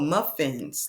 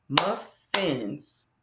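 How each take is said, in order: First: Said in the usual way. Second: Muffins split as "Muf, fins"; clapped-out syllables. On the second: Shown as a demonstration. Teacher clapping out muffins, syllable by syllable. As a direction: Muffins drawn apart into two beats. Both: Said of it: "Let's clap that out".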